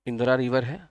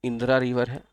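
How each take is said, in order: Both takes have the same delivery.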